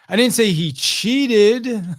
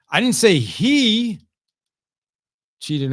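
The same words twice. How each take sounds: First: The word "cheated" carries the main stress. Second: The word "he" carries the main stress. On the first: What he did was not quite cheating. "he just wasn't technically cheating, just fudging the score a little bit" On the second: A different person cheated. "That was someone else that cheated in golf"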